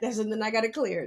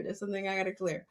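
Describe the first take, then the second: First: Said in the usual way. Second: Much softer, fast, said half to herself; soft fast aside to herself; quiet to herself. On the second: Real, not acted.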